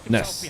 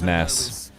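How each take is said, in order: First: The vowel is a short 'uh' sound. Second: The vowel is an open 'ah' sound. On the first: "a little bit closer to like Nus than Nas" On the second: "We'll just go with [name]"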